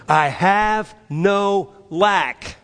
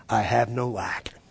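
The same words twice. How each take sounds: First: Slow, higher, emphatic declaration; with conviction. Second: Said in the usual way. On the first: Shown as a demonstration. Preacher leading the church's response, with conviction. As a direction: declare it word by word, raised and firm. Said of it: "Say it with conviction". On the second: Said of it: "Just repeat after me".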